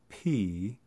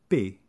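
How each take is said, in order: First: The consonant has a puff of breath. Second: The consonant has no puff of breath. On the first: "there's a little splash of breath" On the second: "without the splash of breath"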